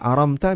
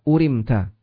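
First: The word begins with an 'a' vowel. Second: The word begins with a 'u' vowel. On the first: "aramta dengan fathah hamzah dan sukun mim" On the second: "bi dhammil hamzah wa kasrir ra urimta"

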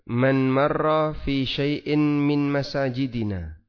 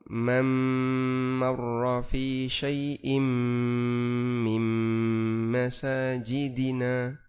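First: Each n before m is pronounced as a clear n. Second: Each n before m merges into a nasal m. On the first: It is read as ordinary Arabic text. "Saya baca kayak gini" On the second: It is read with Quranic recitation rules. "Non mati ketemu mim. Jadinya bacanya"

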